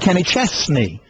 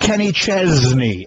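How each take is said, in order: First: The middle consonant of Chesney sounds like s. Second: The middle consonant of Chesney sounds like z. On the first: The speaker calls it right. "you were saying [name]" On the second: The speaker calls it wrong. "as though the S is pronounced like a Z"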